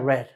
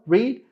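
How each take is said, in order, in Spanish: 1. Se pronuncia con la pronunciación del pasado. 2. Se pronuncia con la pronunciación del presente. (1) "cuando está en pasado, read cambia a read" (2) "read es igual"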